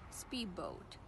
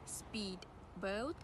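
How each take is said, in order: First: The d changes to b and merges. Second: The d is pronounced clearly before the b.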